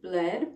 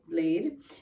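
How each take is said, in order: First: The vowel sounds like 'eh' in 'bed'. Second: The vowel sounds like 'ay' in 'day'. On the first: This is how Americans say it. The speaker calls it wrong. "what the Americans would say is bled" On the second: This is how it is really pronounced. The speaker calls it right. "I now know it's pronounced more like blade"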